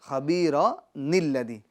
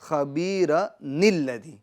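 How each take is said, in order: The two takes are said the same way.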